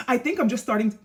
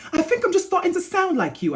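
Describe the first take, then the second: First: Said in the usual way. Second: High-pitched put-on British accent. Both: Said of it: "let me say this in a British accent".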